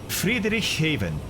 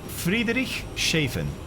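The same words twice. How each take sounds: First: The 'sh' sound in the middle is weak. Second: The 'sh' sound in the middle is strong. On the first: "Am I saying that right?" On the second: "Or do you say the sh more?"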